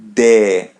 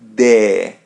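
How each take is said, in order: First: It ends in a clear e vowel. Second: It ends in a clear e vowel.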